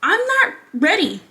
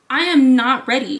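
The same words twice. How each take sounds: First: Said in the usual way. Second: "am" hit louder, falling at the end; stress on am. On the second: Real, not acted. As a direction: lean hard on "am", then drop.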